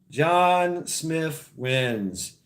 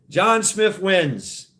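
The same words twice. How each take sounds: First: Dragged out very slowly, each word held; extra-slow dramatic reveal; very slow announcement. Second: Drawn out, slow winner call; slow game-show reveal; slow announcement. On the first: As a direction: savour the win, word by word. Repeats the winning name. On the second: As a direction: stretch each word like a host. Announcing the winning name. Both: Acted.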